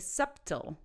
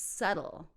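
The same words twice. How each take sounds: First: The b sound is pronounced in the middle. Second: The b sound is silent in the middle. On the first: The speaker calls it wrong. "Don't say subtle" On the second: The speaker calls it right. "The B is silent"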